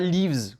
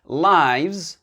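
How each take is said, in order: First: The vowel sounds like the one in 'give'. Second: The vowel sounds like the one in 'life'. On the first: It is the verb to live. The speaker calls it wrong. "C'est pas lives, c'est pas le verbe to live" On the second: It is the plural of life. The speaker calls it right. "c'est le pluriel de life"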